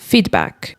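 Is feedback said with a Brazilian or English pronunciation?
English. It is said with native English pronunciation. "quando você estiver no inglês, você precisa conseguir reconhecer essa palavra como feedback"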